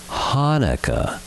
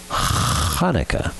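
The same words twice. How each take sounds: First: The word begins with a soft plain h. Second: The word begins with a rasping throat sound. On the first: The speaker calls it wrong. "It is not pronounced Hanukkah" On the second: The speaker calls it right. "Just use your throat and say Ch, then attach it to the rest of the word"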